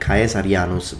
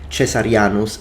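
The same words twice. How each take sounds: First: It uses the classical Latin pronunciation. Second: It uses the ecclesiastical Latin pronunciation. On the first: "I'm using Caesar and Caesarianus because those would be the actual classical pronunciation" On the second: "ecclesiastical Latin, then these would be pronounced"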